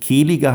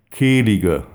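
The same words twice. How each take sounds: First: Kehlige with a throaty, pressed E. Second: Kehlige with the jaw dropped wide for a clear E; open Kehlige. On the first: Showing listeners the throaty Kehlige to avoid. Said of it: "nicht Kehlige heißen". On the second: Coaching listeners to drop the jaw on Kehlige. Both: Shown as a demonstration.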